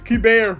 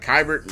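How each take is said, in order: First: The first syllable sounds like 'kay'. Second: The first syllable sounds like 'kai'. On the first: The speaker calls it right. "It's Keibert Ruiz" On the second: The speaker calls it wrong. "I've been butchering our catcher's name though. I've been saying like Kybert"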